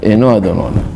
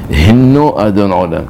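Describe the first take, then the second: First: The first word begins with a vowel, no h. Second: The first word begins with a clear h sound. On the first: It comes out as we are the master of the world. The speaker calls it wrong. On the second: It means here is the master of the world. The speaker calls it right.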